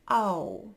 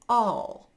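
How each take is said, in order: First: It ends with an ow vowel instead. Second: It ends with a dark L sound.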